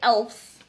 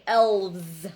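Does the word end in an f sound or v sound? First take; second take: f sound; v sound. First: The word ends with an f sound. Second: The word ends with a v sound. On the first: The speaker calls it wrong. "we don't say elves" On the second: The speaker calls it right. "we say elves"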